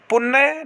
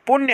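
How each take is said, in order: First: पुण्य as "pun-na"; wrong, missing y. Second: पुण्य as "pun-ya"; correct y sound. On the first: Teacher showing students the mistake, y dropped. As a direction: double the n and drop y in पुण्य. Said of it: "नहीं होता है". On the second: Teacher giving students the right form, y sounded. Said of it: "होता है". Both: Shown as a demonstration.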